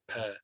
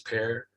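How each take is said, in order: First: The final R sound is left silent. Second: The final R sound is clearly pronounced. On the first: "In Britain, in the south of England, because they don't say the R at the end" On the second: "So in America, because they say the R's"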